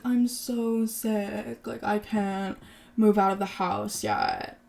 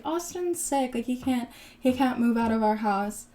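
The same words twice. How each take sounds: First: Slow, drawn-out mock complaint; mock sick whining. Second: Mock sympathetic excuse. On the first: Retelling the ex-husband's excuse for not moving out, mock sick whining. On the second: Retelling the wife excusing her sick husband, mock sympathetic. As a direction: lift the pitch and plead his case in mock concern.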